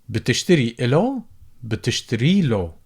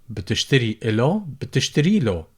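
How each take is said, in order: The two takes are said the same way.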